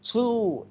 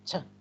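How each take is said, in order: First: The word has a full, long vowel. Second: The word has a short, reduced vowel. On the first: "When we pronounce the word two, we, we say two, it's long O, long U" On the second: "But when we have it a weak form, we say t"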